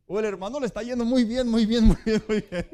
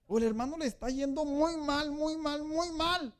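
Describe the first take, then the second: First: Much louder, laughing and fast; a gleeful laughing shout; laughing, going well. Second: Mournful, going badly. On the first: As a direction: burst out joyfully at "muy bien". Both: Shown as a demonstration. Contrasting two joyful brothers.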